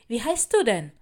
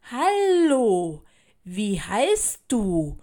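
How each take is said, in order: First: Said in the usual way. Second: Very slow, over-clear and loud question; slow and distinct. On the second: A narrator's reading. Child asks new classmate to be understood, slowly and distinctly. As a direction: draw each word out, enunciating clearly. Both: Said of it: "fragte ich sie langsam und deutlich".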